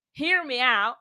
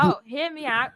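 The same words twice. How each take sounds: First: Put-on drawn-out country accent, slow; slow, louder country twang. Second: Put-on accidental slip into a British accent; loud, higher, put-on British accent. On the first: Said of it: "let's hear you doing your country accent". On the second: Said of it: "I switched to British".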